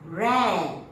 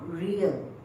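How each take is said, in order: First: The vowel sounds like the one in 'air'. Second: The vowel sounds like the one in 'ear'. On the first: It means to keep and look after animals. The speaker calls it right. "this word we pronounce as rare" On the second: It means the back part, behind. The speaker calls it wrong. "not real"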